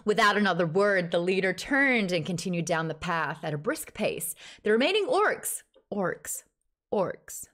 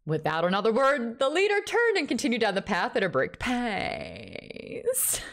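First: American-accented audiobook reading. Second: Put-on film character voice, rising in pitch; Chappie. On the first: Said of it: "Read it in an American accent". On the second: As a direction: impersonate the character, stretching the last word. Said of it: "Read it as Chappie". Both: Shown as a demonstration.

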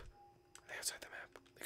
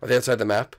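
First: Whisper. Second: Said in the usual way. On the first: Real, not acted. Hunting the hidden players, whispered. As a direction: whisper the question. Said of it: "whispers repeat of line". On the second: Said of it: "plain take before whisper".

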